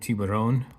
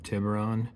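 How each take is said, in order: First: The name is said in a non-English accent. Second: The name is said in an English accent.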